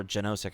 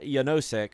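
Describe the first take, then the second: First: Genosek with an initial J sound; Genosek, opening like the J in "jet"; J pronunciation. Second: Yanosek with an initial Y sound; Y pronunciation. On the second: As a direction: say Yanosek starting like "yah". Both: Shown as a demonstration. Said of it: "however the fuck you wanna pronounce his name".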